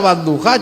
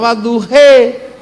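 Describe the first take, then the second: First: It is said in standard Arabic pronunciation. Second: It is said with an Andalusian accent.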